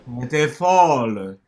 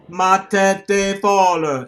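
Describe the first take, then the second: First: The emphasis falls at the end of the phrase. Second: The emphasis falls at the beginning of the phrase.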